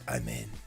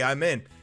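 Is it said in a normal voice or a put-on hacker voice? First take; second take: hacker voice; normal. First: It is said in a put-on hacker voice. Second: It is said in a normal voice.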